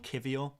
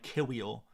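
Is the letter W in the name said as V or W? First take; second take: V; W. First: The W is pronounced as a V. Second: The W is pronounced as an English W. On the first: This is closer to the Polish pronunciation. The speaker calls it right. "but it's more Kivior" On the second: This is how an English speaker would say it. The speaker calls it wrong. "Like an English person would say Kiwior"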